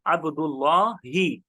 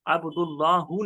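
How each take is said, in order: First: अब्दुल्लाही drawn out slowly, ending in a clear "hee"; ends in -hi. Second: अब्दुल्लाहु with the final vowel as "hoo"; wrong ending -hu. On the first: Teacher models the Arabic phrase for students, अब्दुल्लाही ending -hi. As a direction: say अब्दुल्लाही with final -hi, not -hu. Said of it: "जैसे हम कहते हैं". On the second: Teacher shows students the form not said, अब्दुल्लाहु ending -hu. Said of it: "नहीं कहते हैं". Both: Shown as a demonstration.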